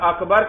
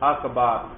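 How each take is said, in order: First: The second syllable has a short vowel. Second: The second syllable has a long vowel. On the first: The speaker calls it right. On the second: The speaker calls it wrong.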